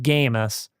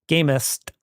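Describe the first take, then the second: First: The name is said without a T sound. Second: The name is said with a T sound. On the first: The speaker calls it wrong. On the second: The speaker calls it right.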